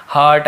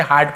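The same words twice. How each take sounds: First: हर्ट said with a short vowel in place of the long aa; wrong pronunciation. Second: Said in the usual way. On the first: Shown as a demonstration. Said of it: "हर्ट ऐसे नहीं पढ़ेंगे". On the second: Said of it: "इसे हार्ट पढ़ेंगे".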